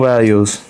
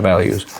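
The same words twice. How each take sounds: First: "values" said slowly, with long, drawn vowels; odd drawn-out values. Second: Said in the usual way. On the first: Real, not acted. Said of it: "why I said it like that". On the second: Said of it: "I don't know why I said it like that".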